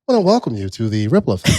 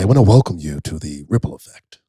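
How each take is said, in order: First: It is said in a high-pitched voice. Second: It is said in a low radio DJ voice.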